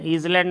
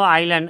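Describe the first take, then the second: First: The word begins with a different vowel sound. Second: The word begins with an 'eye' sound. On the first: The speaker calls it wrong. "ईजलैंड नहीं पढ़ेंगे" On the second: The speaker calls it right. "आइलैंड है तो आई से शुरू"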